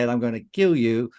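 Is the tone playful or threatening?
threatening. It is said in a menacing, threatening tone. It is a real threat. "you'll run a mile"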